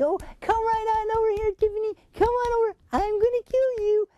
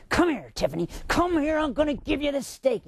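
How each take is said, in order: First: High, sugary call to a beloved dog; sweet coaxing tone. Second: Harsh tone. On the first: Owner calling her golden retriever over, high sweet coaxing. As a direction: coax her over sweetly, no matter the words. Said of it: "she's listening to my tone". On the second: Owner holding out a steak to the dog, harsh unwelcoming call. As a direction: unfriendly call that sounds like trouble. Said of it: "she's paying attention to my tone". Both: Shown as a demonstration.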